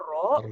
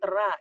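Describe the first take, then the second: First: The vowel sounds heavy and rounded, like 'oh'. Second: The vowel sounds open and light, like 'ah'. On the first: The speaker calls it right. "iya bunyinya "ro"" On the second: The speaker calls it wrong. "bunyinya bukan "ra""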